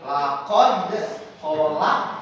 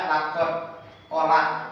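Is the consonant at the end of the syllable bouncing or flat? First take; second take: bouncing; flat. First: The closing consonant is released with a bounce. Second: The closing consonant is flat, with no bounce. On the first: The speaker calls it right. "cara membaca kolkolah adalah" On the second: The speaker calls it wrong. "Tidak ada pantulan, tapi itu datar"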